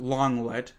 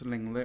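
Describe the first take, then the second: First: The first syllable sounds like 'long'. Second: The first syllable sounds like 'ling'. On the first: This is how an American would say it. The speaker calls it wrong. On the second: This is how a family member says it. The speaker calls it right. "It's not Longlet, it's Linglet or whatever"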